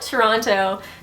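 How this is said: It is the pronunciation used by non-locals. The speaker did not grow up in the city. "anyone who lives in Toronto doesn't call it Toronto"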